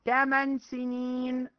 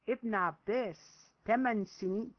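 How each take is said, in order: First: تمن سنين drawn out very slowly and louder; stress on تمن سنين. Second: Said in the usual way. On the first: Shown as a demonstration. Preacher stressing how young Ibn Abbas was, slow emphasis. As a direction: lean hard on تمن سنين to marvel at the age.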